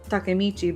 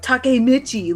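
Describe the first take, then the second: First: It is said with Japanese vowels and rhythm. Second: It is said with English vowels and rhythm. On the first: The speaker calls it right. "in Japanese it'd be" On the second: The speaker calls it wrong. "they're like Takemichi, like in English"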